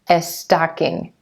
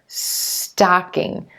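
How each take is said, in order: First: An extra eh vowel comes before the S. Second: It starts directly with the S sound. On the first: The speaker calls it wrong. "Make sure that your chin isn't dropping for the eh" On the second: The speaker calls it right. "going straight into that S sound and the T together"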